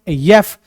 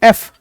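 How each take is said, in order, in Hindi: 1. यह y-जैसी ग्लाइड से शुरू होता है। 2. यह सादे स्वर से शुरू होता है।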